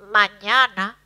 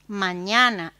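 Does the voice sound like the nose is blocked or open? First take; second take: blocked; open. First: It is said with the nostrils blocked. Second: It is said with the nose open. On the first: "con la, las narinas obstruidas" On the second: "con nariz desobstruida"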